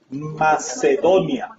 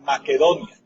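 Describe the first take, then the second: First: The second consonant is an s sound. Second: The second consonant is a k sound.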